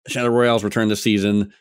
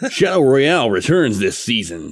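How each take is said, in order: First: It is read in an ordinary speaking voice. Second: It is read in a put-on radio-announcer voice.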